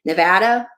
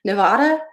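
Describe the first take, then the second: First: Nevada with short A as in "cat", "nuh-VAD-uh"; alternative pronunciation. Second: Nevada with AH in the middle, "nuh-VAH-duh"; usual pronunciation. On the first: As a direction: try Nevada as a question, middle vowel like "dad". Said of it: "tell me how you pronounce Nevada". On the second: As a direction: say Nevada as a question, middle vowel like "father". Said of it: "How do I pronounce it". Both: Shown as a demonstration.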